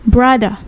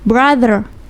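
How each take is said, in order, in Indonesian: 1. Bunyi R di akhir dihilangkan. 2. Bunyi R di akhir jelas diucapkan. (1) "kalau di British, we just say brother" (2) "R-nya di rolling seperti itu"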